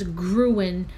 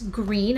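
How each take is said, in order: First: The name is said like 'gruen'. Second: The name is said like 'green'. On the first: The speaker calls it wrong. "I thought it was Gruen" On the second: The speaker calls it right. "but it's green"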